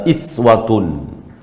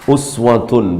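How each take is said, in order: First: The word begins with an i vowel. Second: The word begins with a u vowel.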